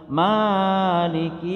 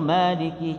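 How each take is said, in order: First: The first vowel is stretched out far too long. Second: The first vowel is held at normal length. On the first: The speaker calls it wrong. "jangan maliki yaumiddin" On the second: The speaker calls it right. "Maliki itu cuma dua harokat"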